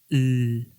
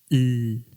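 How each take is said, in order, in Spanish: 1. El sonido de la L es suave y delicado. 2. El sonido de la L es suave y delicado.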